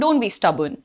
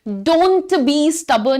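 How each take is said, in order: First: It is said in a normal, casual way. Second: It is said with strong, exaggerated emphasis.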